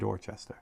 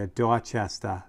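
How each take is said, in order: First: It is said in the speaker's plain accent. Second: It is said in a New England accent.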